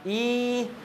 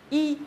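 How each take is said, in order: First: The vowel is stretched out long. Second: The vowel is cut short in one burst. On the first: The speaker calls it wrong. "Ini nggak boleh molor. ... Itu nggak tepat" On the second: The speaker calls it right. "Yang benar ... satu kali hentakan"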